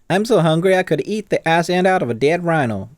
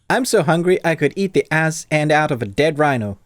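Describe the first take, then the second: First: It is said in a Southern American accent. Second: It is said in a non-American accent. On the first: The speaker calls it right. "That that is my American accent" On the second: The speaker calls it wrong. "I didn't do I this kn- in the right accent"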